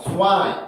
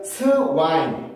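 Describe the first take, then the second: First: The start glides like 'sua' in one beat. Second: The start is a separate 'seu-wa' syllable. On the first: The speaker calls it right. "수아에 가까운 소리" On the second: The speaker calls it wrong. "이게 아니라"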